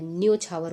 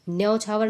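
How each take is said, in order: First: न्योछावर with a closed "o" in the first syllable; correct vowel demo. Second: न्योछावर with an open "au" in the first syllable; the mistaken au sound in न्योछावर; wrong vowel demo. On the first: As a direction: say न्योछावर as "nyo-chhavar". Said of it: "ओ की मात्रा लगेगी". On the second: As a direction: say न्योछावर as "nyau-chhavar". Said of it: "औ की मात्रा नहीं लगेगी". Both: Shown as a demonstration.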